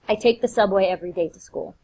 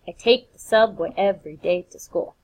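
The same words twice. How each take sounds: First: It is spoken with natural, everyday stress. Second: Every second syllable is heavily, evenly stressed.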